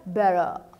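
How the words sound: A relaxed delivery with some sounds dropped. "o australiano... ele não fala todas as letras"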